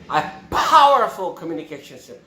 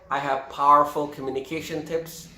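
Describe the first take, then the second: First: The p in powerful is popped forcefully. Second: The p in powerful is said plainly.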